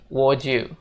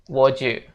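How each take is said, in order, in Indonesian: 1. Kata-katanya digabung menjadi satu potongan yang tereduksi. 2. Kata-katanya digabung menjadi satu potongan yang tereduksi.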